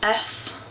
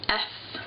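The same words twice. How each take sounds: First: The sound is made forward, at the cheeks. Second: The sound is made further back, in the throat. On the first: "in English it's very much pronounced like kind of with the cheeks" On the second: "but like I pronounce it more with the throat"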